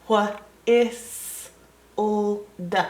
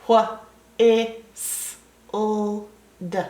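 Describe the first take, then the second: No difference in how they are said.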